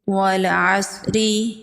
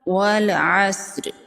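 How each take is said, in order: First: The final vowel is pronounced fully. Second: Only a brief trace of the final vowel. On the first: The speaker calls it wrong. "ये हम ज़ेर को मुकम्मल पढ़ रहे हैं तो मुकम्मल नहीं पढ़ना" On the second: The speaker calls it right. "इसका तिहाई हिस्सा पढ़ना है"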